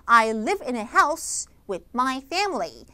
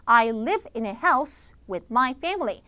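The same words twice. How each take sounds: No difference in how they are said.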